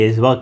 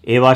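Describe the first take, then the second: First: The middle consonant is pronounced as a 'j' sound. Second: The middle consonant is dropped, giving 'eh-va'. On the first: This is the North Indian pronunciation. "हम लोग उत्तर भारतीय एजवा करते हैं" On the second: This is the pronunciation used in Kerala. "Kerala में जो है एवा शायद कहा जाता है"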